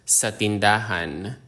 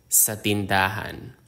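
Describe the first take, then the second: The two takes are said the same way.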